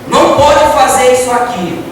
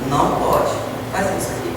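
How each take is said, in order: First: It is said firmly and with finality. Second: It is said softly and gently. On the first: The order is final and not open to discussion. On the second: The request comes from feeling and can be pleaded over.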